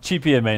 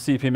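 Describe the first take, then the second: First: The letters are said with Italian letter names. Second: The letters are said with English letter names.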